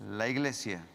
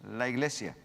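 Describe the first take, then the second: The two takes are said the same way.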